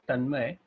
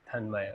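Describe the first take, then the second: First: The first T is unaspirated and dental. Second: The first T has a strong puff of air. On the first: "since the initial aspiration is not there" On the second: "to make you understand that it's a T"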